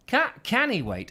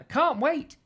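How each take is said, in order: First: "can he wait" said as Scottish "cannae wait"; Scottish accent. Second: Said in the usual way. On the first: Retold or imitated. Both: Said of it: "she's suddenly gone Scottish".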